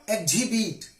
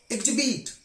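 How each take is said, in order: First: EXHIBIT as "eg-jhibit", H pronounced; wrongly sounded H. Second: EXHIBIT as "eg-jibit", with no H; silent H. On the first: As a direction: breathe an H into EXHIBIT. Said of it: "not exhibit". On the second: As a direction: drop the H in EXHIBIT. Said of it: "H is always silent when it is after X". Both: Shown as a demonstration.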